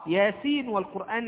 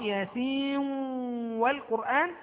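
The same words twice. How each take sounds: First: The final n is pronounced clearly before w. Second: The final n merges into the following w. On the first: "الإظهار" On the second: "والإضغام"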